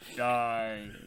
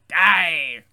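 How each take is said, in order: First: The voice is low and deep. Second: The voice is fairly high and raspy. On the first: The speaker calls it right. "Just do Mufasa" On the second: The speaker calls it wrong. "Still Palpatine"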